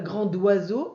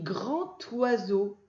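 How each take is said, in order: First: A 'd' sound links the two words. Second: No 'd' sound links the two words. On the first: The speaker calls it wrong. "mais on ne dit pas D, on ne dit pas grand oiseau" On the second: The speaker calls it right. "on dit grand oiseau"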